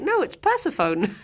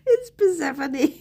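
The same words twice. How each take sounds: First: Mock correction, Persephone said PER-seh-phone to rhyme with phone; laughing while quoting Persephone as PER-seh-phone; imitating a friend's correction. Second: Persephone said per-SEF-uh-nee, stress on SEF; laughing retort with Persephone as per-SEF-uh-nee; own retort. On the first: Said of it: "one of my friends corrected me ... and was like". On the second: Retold or imitated. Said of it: "I was like".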